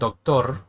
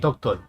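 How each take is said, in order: First: The word ends with an R sound. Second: The word ends with an L sound. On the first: "instead of saying doctor" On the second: "sometimes we mix uh, the L's and the R's"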